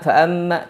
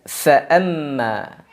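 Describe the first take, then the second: First: The opening f sound is rushed and unclear. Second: The opening f sound is clearly pronounced. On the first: The speaker calls it wrong. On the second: The speaker calls it right.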